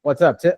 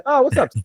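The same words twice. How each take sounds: First: Said in the usual way. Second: Oh jumps way up high; suddenly recognizing a friend; surprised recognition. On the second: Real, not acted.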